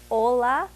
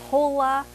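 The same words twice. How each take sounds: First: The word starts directly with the vowel. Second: The word starts with an audible h sound. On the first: The speaker calls it right. "it's hola. The H's are silent" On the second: The speaker calls it wrong. "instead of saying hola"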